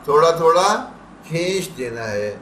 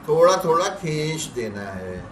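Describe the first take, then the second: Both takes have the same delivery.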